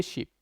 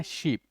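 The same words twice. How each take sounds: First: शीप with a short, quick i; short vowel. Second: शीप with a lengthened ee; long vowel. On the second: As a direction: hold the ee in शीप. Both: Shown as a demonstration. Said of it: "इसमें थोड़ा सा sound लंबा जा रहा है".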